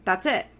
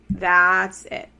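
First: Said in the usual way. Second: "That's" hit louder, flat and final; emphatic repeat. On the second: Real, not acted. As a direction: slam it shut, stressing "That's".

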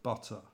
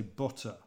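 First: London-style open U in "butter"; "butter" with an open uh sound; southern U. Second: Midlands U in "butter", like the vowel of "put"; "butter" with the old North Midlands vowel; short U. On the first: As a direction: say "butter" with the southern English vowel, as in "cup". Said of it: "instead of butter". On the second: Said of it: "my U sound was very, um, short". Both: Shown as a demonstration.

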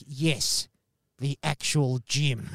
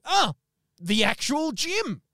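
First: Deadpan it back at him; curt reply. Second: High, slow, awed "the actual Jim"; starstruck. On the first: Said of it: "And he's like". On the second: Starstruck caller gushing to Jim on the phone, high and slow. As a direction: gush at meeting the famous man. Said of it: "And I'm like". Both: Retold or imitated.

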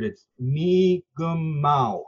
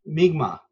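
First: Mi'kmaq drawn out slowly into three, "MEE-gum-maw"; teacher giving correct Mi'kmaq; three syllables. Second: Mi'kmaq squeezed into two syllables, "MIG-maw"; wrong two syllables. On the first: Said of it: "There's actually three syllables in the word". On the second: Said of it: "You often heard Mi'kmaq, two syllables". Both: Shown as a demonstration.

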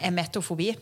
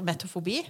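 First: Emetofobi, with a clear e before the m; careful correction, emetofobi with the opening e; corrected word emetofobi. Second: Metofobi, said without the first e; starts straight on m, metofobi; wrong word metofobi. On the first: (rettet uttale emetofobi med tydelig e først) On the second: (metofobi uttalt uten e i starten) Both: Shown as a demonstration. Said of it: "Eh, emetofobi".

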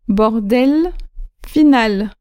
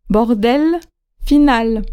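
First: Bordel, final with the final L sounded; Bordel, final repeated, L ringing at the end; said clearly. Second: Bordel said with the final L sounded; bordel, final, L clear at the end; said clearly. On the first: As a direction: model the final L in Bordel again. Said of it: "repeat of model". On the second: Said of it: "final L pronounced". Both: Shown as a demonstration.

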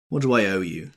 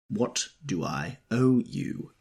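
First: Louder, harsh demand. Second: Slow, pointed repeat of owe. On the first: Tom harshly demanding the bill from Wilson. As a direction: cut him off coldly. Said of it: "demanded Tom, harshly". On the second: Tom repeating the question to Wilson, slow and pointed. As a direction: lean on the word owe, slowly. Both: A narrator's reading.

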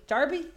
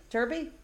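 First: "Derby" said as "darby", British style; "Derby" with an open "ar" sound, as "darby"; British pronunciation. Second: "Derby" said as "durby", American style; "Derby" with an r-coloured "er", as "durby"; American pronunciation. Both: Shown as a demonstration. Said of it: "Oh, in America, derby".

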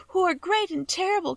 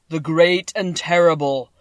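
First: "great and terrible" said much higher and light, not boomed; a small girl echoing "great and terrible" in a high plea; tearful child repeating "great and terrible"; little girl Dorothy. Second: "terrible" boomed slow and much louder, falling; a giant head proclaiming "the great and terrible"; booming Oz voice. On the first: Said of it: "she sobbed". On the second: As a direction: stretch "the great and terrible" out in a loud, slow boom. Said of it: "Dorothy heard a voice say". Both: A narrator's reading.

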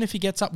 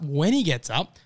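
First: Said in the usual way. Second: WHEN punched as a confident correction; stress on WHEN. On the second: Real, not acted. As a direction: lean firmly on "when".

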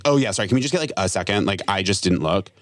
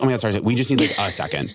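First: Still rude. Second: Apologetic sweet tone. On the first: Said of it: "It still sounds rude". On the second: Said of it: "So I should have been like". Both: Shown as a demonstration.

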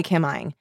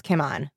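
First: "Kim Ing" in Northern Vietnamese pronunciation, ending in "ing"; Northern Vietnamese name, "Ing" with a gliding vowel and ng; Northern Vietnamese accent. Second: "Kim An" in Southern Vietnamese pronunciation, open "ah" and n; Southern Vietnamese name, "An" rhyming with "on"; Southern Vietnamese accent. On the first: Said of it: "my family speaks with the Northern accent". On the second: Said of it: "if you say it in the Southern accent". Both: Shown as a demonstration.

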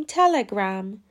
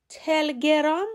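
First: تلگرام said 'TEL-e-gram', English short a; 'TELL-uh-gram' for تلگرام, with a vowel after the l; correct Telegram pronunciation. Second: تلگرام said 'tel-ge-RAAM', no vowel after the l; wrong 'telgerâm' for تلگرام, pitched up; mispronounced Telegram. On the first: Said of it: "باید بگیم". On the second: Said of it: "درست نیست". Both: Shown as a demonstration.

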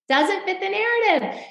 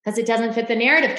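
First: High, pointed refrain; pointed repeat. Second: Said in the usual way. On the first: Real, not acted.

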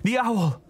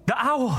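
First: High alarmed cry; startled cry, higher; cried out. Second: High alarmed cry; startled cry, much higher; cried out. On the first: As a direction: yelp it again, startled. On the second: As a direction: yelp it in startled fright. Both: Acted. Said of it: "he cried out".

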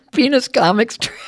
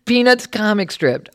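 First: "Penis" said with a long nasal ee and no t, like penis; peanuts mispronounced as penis. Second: "Peanuts" with a clear long ee and a crisp t before the s; careful peanuts pronunciation. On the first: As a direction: say "Penis comic strip" so peanuts sounds like penis. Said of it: "he warned me to be careful that my peanuts sound like penis". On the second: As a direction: say "Peanuts" carefully so it never sounds like penis. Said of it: "He had me practice". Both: Shown as a demonstration.

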